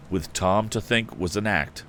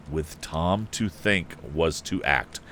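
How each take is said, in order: First: Said in the usual way. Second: Slow, careful reread stressing to; slow correction. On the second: Shown as a demonstration. Reader correcting a misread line, slow and careful.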